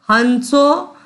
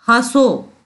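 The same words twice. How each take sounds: First: "हंसो" as han-so, with a distinct n; wrong full n. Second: "हंसो" as hã-so, vowel through the nose with no n; nasalised vowel. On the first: Teacher shows the miswritten form, full n in "हंसो". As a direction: sound a separate n in "हंसो". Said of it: "नहीं लिखा, लिखना चाहिए". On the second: Teacher demonstrates chandrabindu, nasal vowel in "हंसो". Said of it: "स्वर को नाक से बोला जाता है". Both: Shown as a demonstration.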